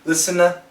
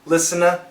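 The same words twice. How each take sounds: First: The T sound is dropped after the N. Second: The same.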